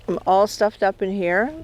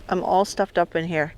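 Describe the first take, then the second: No difference in how they are said.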